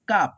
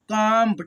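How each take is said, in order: First: The vowel is said without nasalization. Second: The vowel is said through the nose. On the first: "इसको हम लोग ऐसे पढ़ दे रहे हैं काप" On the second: "नाक से उच्चारण होगा"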